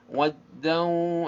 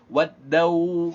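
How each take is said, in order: First: The ending sound resonates through the nose. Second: The ending sound comes from the lips. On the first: The speaker calls it right. "itu suara hidung" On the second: The speaker calls it wrong. "itu suara bibir"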